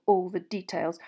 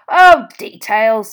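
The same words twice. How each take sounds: First: Said in the usual way. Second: Loud, slow, drawn-out DETAILS; dismissive. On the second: A narrator's reading. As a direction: wave away "details" with a booming, stretched delivery. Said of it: "waving the word away".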